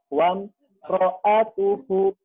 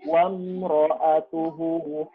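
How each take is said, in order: First: There is a break after the first syllable. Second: It is said in one unbroken flow. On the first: The speaker calls it wrong. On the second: The speaker calls it right.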